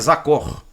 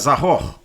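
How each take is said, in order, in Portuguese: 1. A consoante do meio é um som de k forte. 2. A consoante do meio é um som de kh rascado. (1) "Se ele tivesse com o Dagesh aqui no meio, ele seria Zakor" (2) "sem o Dagesh ele fica Zahor"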